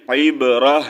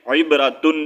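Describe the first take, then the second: First: عبرہ ending on a breathed H; pausal stop. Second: عبرتن with TUN fully sounded; wrong at pause. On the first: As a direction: break the breath on عبرہ with an audible H. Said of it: "وقف کرنا چاہیں گے". (عبرہ پر سانس توڑ کر وقف) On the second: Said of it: "نہیں پڑھیں گے". (عبرتن میں تن کی آواز) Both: Shown as a demonstration.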